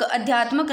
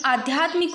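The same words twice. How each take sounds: First: "अध्यात्मक" with short first a, ending mak; rejected pronunciation. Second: "आध्यात्मिक" with long aa, ending mik; corrected pronunciation. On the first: Teacher showing the error, "अध्यात्मक" ending in mak. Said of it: "अध्यात्मक नहीं". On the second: Teacher giving the correction, "आध्यात्मिक" ending in mik. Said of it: "आध्यात्मिक होता है". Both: Shown as a demonstration.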